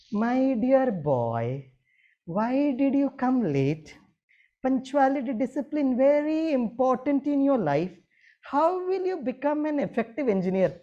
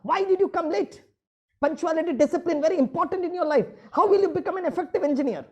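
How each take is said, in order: First: Yavaş, yüksek perdeden yumuşak öğüt; aynı azarı şefkatle, ağır ağır söyle; sevgiyle. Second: Yüksek perdeden, yüksek sesle azarlayan öğretmen; geç kalan öğrenciye sinirle bağır; öfkeli bağırış. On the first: Shown as a demonstration. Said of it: "अभी बड़े प्यार से बोलता हूँ". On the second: Retold or imitated. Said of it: "जब मेरे students late आते मैं भड़कता था".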